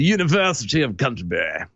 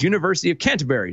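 First: It is said with a British accent. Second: It is said in the speaker's usual accent. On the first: The speaker calls it right. "Thank you. That's all I wanted" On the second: The speaker calls it wrong. "you can't say University of Canterbury without actually having a British accent"

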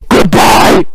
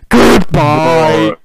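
First: It is said in a plain, neutral tone. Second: It is said in a sad, mournful tone.

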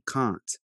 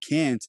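First: It is said with a British accent. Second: It is said with an American accent. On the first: "I kept saying can't" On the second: "instead of saying can't"

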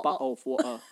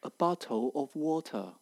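First: It is said in a lazy, casual British way. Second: It is said in a textbook standard British accent.

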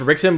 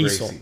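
First: The name begins with an English R sound. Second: The name begins with an H-like sound. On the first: "it's pronounced Rickson" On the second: "Brazilians pronounce R's as H's"

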